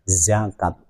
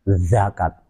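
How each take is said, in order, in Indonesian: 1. Kata ini diawali dengan bunyi z biasa. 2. Kata ini diawali dengan bunyi d. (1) "nah di ujung lidah" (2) "diucapkan seperti huruf dal"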